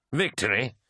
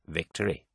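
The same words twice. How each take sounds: First: Higher, rising incredulous echo; mocking disbelief. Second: Said in the usual way. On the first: A narrator's reading. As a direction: throw VICTORY back as a scoffing question. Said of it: "laughed Eidolon". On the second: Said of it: "said Lucius".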